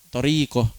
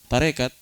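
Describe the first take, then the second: First: The first syllable sounds like 'to'. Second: The first syllable sounds like 'ta'. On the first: This is the original Arabic form. "Asalnya toriko" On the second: This is the form adapted into Indonesian. "Tonya jadi ta, ko-nya jadi ka, tarekat"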